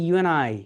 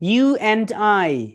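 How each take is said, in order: First: The words blend into one with a short 'n'. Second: Each word is said separately with a full 'and'.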